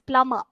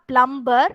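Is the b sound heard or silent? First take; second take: silent; heard. First: The b sound is silent. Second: The b sound is pronounced. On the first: The speaker calls it right. "You should not pronounce this B" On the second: The speaker calls it wrong. "it's not plumber"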